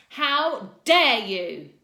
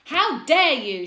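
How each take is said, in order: First: Slow furious shout, much louder; enraged. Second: Furious shout, much higher and louder, slow. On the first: Teacher repeating it in rage, slow furious shout. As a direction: drag each word out in rage. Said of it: "She was enraged too". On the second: Teacher shouting at two boys, furious shout. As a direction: bellow it at the fighting boys. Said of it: "shouted Missus Collins". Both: A narrator's reading.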